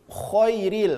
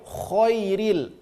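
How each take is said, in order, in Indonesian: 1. Bunyi vokal pertama tebal, seperti o. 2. Bunyi vokal pertama tebal, seperti o.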